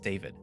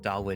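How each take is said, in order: First: The middle consonant is a V sound. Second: The middle consonant is a W sound. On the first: The speaker calls it right. "the W, I guess, is pronounced like a V" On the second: The speaker calls it wrong. "so it's not Dalwood"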